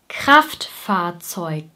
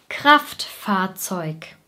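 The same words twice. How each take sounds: Both takes have the same delivery.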